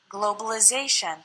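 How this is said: The letter I takes a different, changed sound. "American English changes the sound of the letter I"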